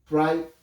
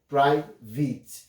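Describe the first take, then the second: First: The second syllable has an 'I' vowel sound. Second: The second syllable has an 'E' vowel sound.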